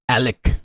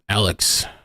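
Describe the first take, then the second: First: The name ends on a k sound only. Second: The name ends with a final s sound. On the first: The speaker calls it right. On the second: The speaker calls it wrong.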